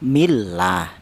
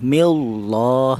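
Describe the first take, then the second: First: The L is said thin and light. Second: The L is said thick and heavy. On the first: The speaker calls it right. "Cara bacanya millah, ... sebab dibaca tarkik atau tipis" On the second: The speaker calls it wrong. "tidak boleh millah"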